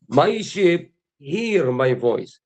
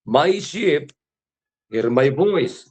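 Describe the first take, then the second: First: Very slow, every word drawn out; solemn slow recitation; slow emphatic scripture. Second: Said in the usual way. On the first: Acted. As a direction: let each word of "My sheep hear my voice" land slowly. Scripture repeated slowly, drawn out.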